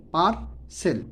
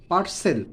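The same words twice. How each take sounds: First: পার্সেল broken into par and sel; split into syllables. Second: Said in the usual way. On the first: Shown as a demonstration. Teacher teaching students to pronounce পার্সেল, split in two. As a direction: say পার্সেল in two separate beats. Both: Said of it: "syllable ভাগ করে".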